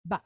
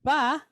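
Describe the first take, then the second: First: Ba cut off quick; real short. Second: Ba with the "ah" held long; long vowel. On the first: Teacher contrasting patah with kamatz, ba real quick and short. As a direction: say ba with a very brief "ah". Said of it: "Real quick, real short". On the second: Teacher contrasting kamatz with patah, ba held long. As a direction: draw out the vowel in ba. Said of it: "Just how long you hold this down". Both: Shown as a demonstration.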